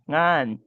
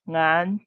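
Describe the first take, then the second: First: The pitch drops low at the end. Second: The pitch rises and stays high. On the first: The word ends the utterance. "utterance finally there is an additional low tone, low boundary tone" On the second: The word is in the middle of the utterance. "if the s- final syllable is has a long vowel, it will be pronounced like"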